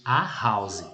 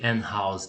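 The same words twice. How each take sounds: First: "a house", no N before the sounded H; article "a" before sounded H. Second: "an house", N sound before the voiced-out H of "house"; article "an" before sounded H. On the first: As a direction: say "a" as a bare vowel, then "house". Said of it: "tinha que ser a house". ("a house", sem N antes do H sonoro) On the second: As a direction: say "an" with an N, then "house". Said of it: "aí eu não poderia ser an house". ("an house", com N antes do H sonoro) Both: Shown as a demonstration.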